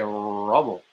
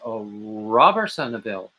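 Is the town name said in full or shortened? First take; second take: shortened; full. First: The name is squeezed into a short reduced form. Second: The name is said in full, syllable by syllable. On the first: This is how local people actually say it. "but we say rubble or something like that" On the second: This is how the spelling suggests it is said. "looks like it's a Robersonville"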